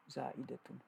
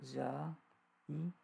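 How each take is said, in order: First: Said in the usual way. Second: "za'idatun" very slow, a pause between syllables. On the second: Shown as a demonstration. Teacher sounding out a term for students, syllable by syllable. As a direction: break "za'idatun" into long, separate syllables.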